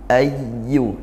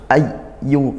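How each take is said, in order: First: The doubled y is held with flowing voice. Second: The doubled y is cut short abruptly. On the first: The speaker calls it right. "dengan aliran suara" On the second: The speaker calls it wrong. "jangan terus ayyu"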